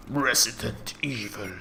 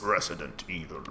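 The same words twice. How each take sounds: First: Announcer voice. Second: Deep announcer voice. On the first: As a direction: intone the title slowly. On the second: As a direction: growl the title like the game. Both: Retold or imitated. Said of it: "reminds me of that voice".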